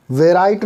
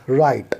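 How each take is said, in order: First: "वे राइट" with an added "ve" before R; W wrongly sounded. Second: "राइट" starting straight on R; silent W. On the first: Teacher shows what not to read, "वे राइट" with W sounded. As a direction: say "वे राइट", voicing the W as its own syllable. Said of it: "नहीं पढ़ेंगे". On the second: Teacher models the correct reading, "राइट" with silent W. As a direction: say "राइट" as one syllable, no w before r. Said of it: "इसको पढ़ेंगे". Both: Shown as a demonstration.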